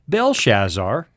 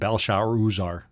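First: The name has its usual English pronunciation. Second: The name has its original-language pronunciation.

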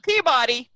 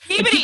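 First: Peabody is pronounced the way an outsider says it. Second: Peabody is pronounced the way locals say it. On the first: The speaker calls it wrong. "not Peabody" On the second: The speaker calls it right. "Peabody, not"

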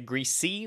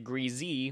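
First: The middle consonant is a hissing S sound. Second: The middle consonant is a buzzing Z sound. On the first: "say greasy with an S sound" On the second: "say greasy with a Z sound"

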